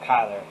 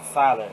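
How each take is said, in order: First: The name starts with a k sound. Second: The name starts with an s sound. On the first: The speaker calls it right. "not Kyler" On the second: The speaker calls it wrong. "I always used to pronounce it Siler"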